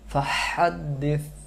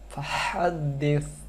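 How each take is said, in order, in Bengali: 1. শেষ ব্যঞ্জনটি জিহ্বা সামনে রেখে উচ্চারিত 'থ' ধ্বনি। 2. শেষ ব্যঞ্জনটি জিহ্বা সামনে রেখে উচ্চারিত 'থ' ধ্বনি।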